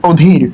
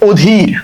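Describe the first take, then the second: First: অধীর again, opening অ said as ও, ohdhir; ও sound start. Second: অধীর said with the opening অ sounding like ও, ohdhir; অধীর begins on an ও sound, not a flat অ; ও sound start. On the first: Teacher repeats অধীর for students, with an ও start. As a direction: repeat অধীর with the first vowel as ও. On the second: Teacher to admission students, showing the ও start of অধীর. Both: Shown as a demonstration. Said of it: "এটার উচ্চারণ কিন্তু ও দিয়ে শুরু হবে".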